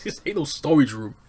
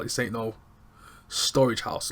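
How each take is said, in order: First: "storage" hit louder and higher; emphatic mom. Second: Said in the usual way. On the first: Retold or imitated. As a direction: lean hard on "storage" with a falling end. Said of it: "she's just like". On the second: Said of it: "She's like".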